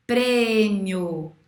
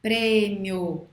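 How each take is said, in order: First: Prêmio said with the O louder than the I; the I weak and the O strong in prêmio; prêmio with the stress carried on the final O; demo word. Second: Prêmio repeated with the final O heard stronger; Prêmio, let the O ring over the I; Prêmio with the O sounding stronger; demo word again. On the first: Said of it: "Você escuta mais o I ou o O?". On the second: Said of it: "Mais o O". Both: Shown as a demonstration.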